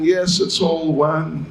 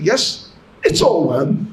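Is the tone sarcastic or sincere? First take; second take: sincere; sarcastic. First: It is said in a sincere, earnest tone. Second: It is said in a sarcastic, mocking tone. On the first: The speaker means what is said. "the Mayavadi is saying" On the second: The speaker is mocking the idea. "in a sarcastic mood"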